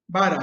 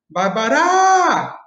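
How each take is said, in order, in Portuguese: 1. O acento está na primeira sílaba. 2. O acento está em uma sílaba posterior. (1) "a primeira sílaba, né, a gente fala assim" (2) "A gente não fala"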